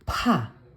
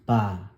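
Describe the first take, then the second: First: The consonant is released with a strong puff of air. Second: The consonant is plain, without a puff of air. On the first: "aspirated form o yung may hangin" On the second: "bagsak lang na tunog"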